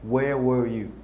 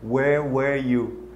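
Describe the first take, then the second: First: 'Were' sounds different from 'where'. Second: 'Were' sounds exactly like 'where'. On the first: The speaker calls it right. "En fait, ça se prononce where were you?" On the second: The speaker calls it wrong. "je prononçais les deux mots de la même manière"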